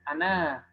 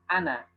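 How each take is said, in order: First: The final vowel is held long. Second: The final vowel is said short. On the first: The word ends the phrase. "dibaca wakof kita bacanya bisa dua harokat" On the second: The word runs on into the next. "dibaca sambung, ya, dibacanya pendek"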